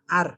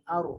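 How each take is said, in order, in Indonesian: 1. Huruf r dibaca tipis dan ringan. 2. Huruf r dibaca tebal dan berat. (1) "Jangan ar. Jangan tipis" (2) "tapi aru"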